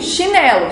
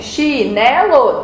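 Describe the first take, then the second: First: Said in the usual way. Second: "Chinelo" slowly split into chi-ne-lo; syllable by syllable. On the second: Shown as a demonstration. Teacher counting a word's syllables for pupils, syllable by syllable. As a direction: count out "Chinelo" in three separate, stretched syllables. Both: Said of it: "você vai contar quantas sílabas tem".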